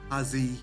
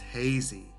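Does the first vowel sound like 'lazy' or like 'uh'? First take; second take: like uh; like lazy. First: The first vowel does not rhyme with lazy. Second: The first vowel rhymes with lazy. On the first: The speaker calls it wrong. "Sometimes I hear" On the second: The speaker calls it right. "but it's hazy. Rhymes with lazy and crazy"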